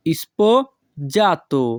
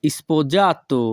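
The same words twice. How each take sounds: First: Sposato broken as "ispo... jato"; slow sposato, pause after "ispo"; syllable by syllable. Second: Said in the usual way. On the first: Shown as a demonstration. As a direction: split sposato in two for learners, "ispo, jato". Teacher repeats word split for learners.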